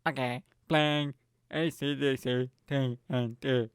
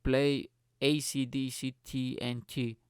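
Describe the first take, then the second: First: Slow, mock robotic assistant voice; Alexa. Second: Slow, spaced-out command to a device. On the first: Smart speaker confirming a song request, robotic impression. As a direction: imitate a machine reading out letters, slowly. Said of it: "this fucking thing went". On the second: Retold or imitated. Friend ordering music from smart speaker, slow command. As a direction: say each letter separately, slowly. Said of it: "And he was like".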